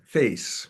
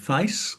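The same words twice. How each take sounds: First: The vowel has a non-Cockney quality. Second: The vowel has a Cockney quality. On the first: "this young man says face" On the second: "a Cockney would say face"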